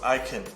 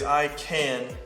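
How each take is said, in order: First: It is said quickly with reduced sounds. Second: It is said slowly with full vowels.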